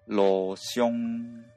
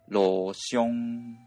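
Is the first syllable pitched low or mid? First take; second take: low; low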